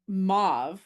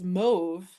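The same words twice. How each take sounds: First: The vowel rhymes with suave. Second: The vowel rhymes with stove. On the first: "to rhyme with like suave" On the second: "the other way as mauve"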